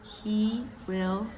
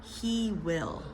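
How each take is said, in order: First: Two full separate words are spoken. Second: Two full separate words are spoken.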